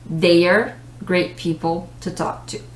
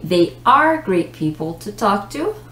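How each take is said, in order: First: They and are are linked into one fast syllable. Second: They and are are said as separate words.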